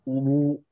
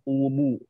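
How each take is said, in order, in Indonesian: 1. Kata ini diucapkan dengan bunyi tebal. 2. Kata ini diucapkan dengan bunyi tipis. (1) "ubu itu tebal" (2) "tipiskan lagi"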